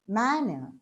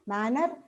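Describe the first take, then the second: First: The stress is on the first syllable. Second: The stress is not on the first syllable. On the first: The speaker calls it right. "manner on m" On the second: The speaker calls it wrong. "we tend to pronounce it as"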